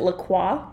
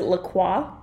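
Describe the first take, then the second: First: The name is said with a French pronunciation. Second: The same.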